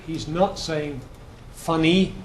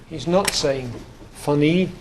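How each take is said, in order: Both takes have the same delivery.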